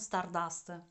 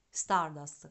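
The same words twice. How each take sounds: First: The stress is on the second syllable. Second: The stress is on the first syllable. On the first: The speaker calls it wrong. "non Stardust" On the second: The speaker calls it right. "con l'accento sulla A"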